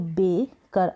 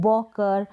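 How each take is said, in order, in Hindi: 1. पहला स्वर ay जैसा सुनाई देता है। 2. पहला स्वर aw जैसा सुनाई देता है। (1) "ए को ए हमने यहाँ पर पढ़ा" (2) "इस तरीके से नहीं पढ़ेंगे"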